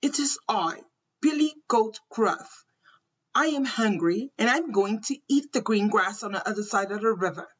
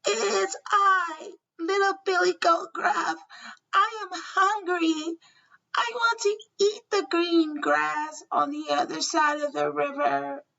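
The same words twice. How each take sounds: First: Lightly voiced big goat; a hint of the biggest billy goat; Billy Goat Gruff voice. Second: Tiny, high-pitched little goat; small goat voice. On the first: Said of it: "He answered in his Billy Goat Gruff voice". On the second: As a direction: squeak it out like the littlest billy goat. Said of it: "answered in his small Billy Goat voice". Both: A narrator's reading.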